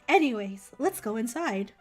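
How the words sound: It is said in a high, chipper voice.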